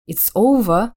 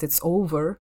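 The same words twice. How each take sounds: First: British OVER ending in a vowel, no R; British pronunciation. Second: American OVER with the final R sounded; American pronunciation. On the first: Explaining the silent R on her accent course, British accent. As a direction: say OVER the British way, dropping the final R. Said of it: "произносится только если после неё идёт гласная". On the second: Showing how an American would say it, American accent. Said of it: "в отличие от американца, который скажет". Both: Shown as a demonstration.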